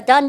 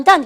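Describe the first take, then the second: First: "done" rising as if asking; question tune. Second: "done" falling as a short answer; statement tune. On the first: Teacher showing the question before its answer, rising. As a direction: tilt "done" upward to ask. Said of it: "다 했냐?". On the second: Teacher showing the answer after the question, falling. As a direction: close "done" off with a downward tune. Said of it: "다 했다". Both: Shown as a demonstration.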